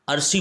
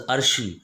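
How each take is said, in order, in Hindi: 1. बीच का व्यंजन सादा 's' ध्वनि है। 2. बीच का व्यंजन 'sh' ध्वनि है। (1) "अगर कोई अरसी बोलता है" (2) "ये नाम ऐसे नहीं है जैसे आप बोल रहे हैं, दिस इज़ अर्शी"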